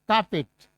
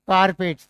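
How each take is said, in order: First: The r sound is silent. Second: The r sound is pronounced. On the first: The speaker calls it right. "आर is silent" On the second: The speaker calls it wrong. "That's wrong"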